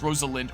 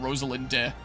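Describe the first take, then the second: First: The name ends without a final vowel sound. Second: The name ends with an extra vowel sound.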